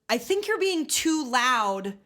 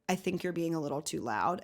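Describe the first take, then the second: First: It is said in a loud, angry tone. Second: It is said in a calm, neutral tone.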